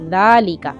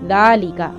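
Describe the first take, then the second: First: The word starts with a soft th-like sound. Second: The word starts with a soft th-like sound.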